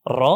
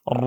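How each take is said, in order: First: Said in the usual way. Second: Heavy rolled র with a deep "o", drawn out; heavy letter. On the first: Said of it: "আর normally পড়লে কি হতো?". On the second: Shown as a demonstration. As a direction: say র as a long, thick, rounded "rwo". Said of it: "এরকম মোটা করে উচ্চারণ করতে হবে". (মোটা করে টানা র)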